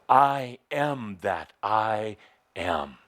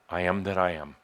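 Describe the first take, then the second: First: It is said with intense passion and force. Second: It is said flatly, without conviction.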